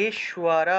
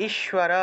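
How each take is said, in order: Both takes have the same delivery.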